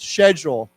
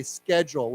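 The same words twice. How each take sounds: First: "schedule" starting with sh, as in SHED-yool; British pronunciation. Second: "schedule" starting sk, as in SKED-yool; American "schedule", sk not sh; American hard K. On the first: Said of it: "say the British way once". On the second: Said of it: "with a K". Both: Shown as a demonstration.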